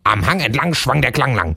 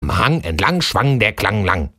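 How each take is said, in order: First: It is said faster. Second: It is said at a moderate pace.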